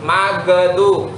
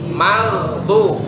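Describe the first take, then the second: First: The gh sound bounces with an added vowel. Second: The gh sound is held closed without bouncing. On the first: The speaker calls it wrong. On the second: The speaker calls it right.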